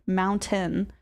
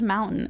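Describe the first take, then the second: First: The middle T is pronounced clearly. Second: The middle T is dropped, not fully sounded. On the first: The speaker calls it wrong. "You don't pronounce it as like" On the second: The speaker calls it right. "It's just"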